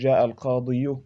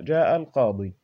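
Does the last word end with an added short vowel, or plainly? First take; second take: added vowel; plainly. First: The last word ends with an added short vowel. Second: The last word ends plainly on a long vowel. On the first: The speaker calls it wrong. "يثقل على الفم أن يقول جاء القاضي" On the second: The speaker calls it right. "القاضي ننطقها هكذا"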